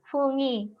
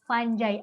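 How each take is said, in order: First: The g is hard and it ends in 'ee'. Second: The g is soft and it ends in 'eye'. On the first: The speaker calls it wrong. "dulu tante juga membacanya fungi" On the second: The speaker calls it right. "ternyata cara membacanya yang betul Vanjai"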